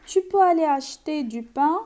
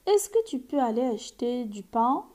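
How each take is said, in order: First: "tu peux aller acheter du pain" with the pitch rising to the end; question by rising tune. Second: Said in the usual way. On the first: Shown as a demonstration. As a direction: make it a question with intonation alone, louder. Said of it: "concentre sur l'intonation à l'oral". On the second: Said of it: "On peut poser la question en utilisant est-ce que".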